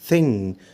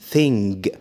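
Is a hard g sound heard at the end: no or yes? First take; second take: no; yes. First: The word ends without a hard g sound. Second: The word ends with a hard g sound. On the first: The speaker calls it right. "قول thing" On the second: The speaker calls it wrong. "ما تقولش thing"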